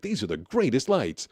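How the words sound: It is said in an excited tone.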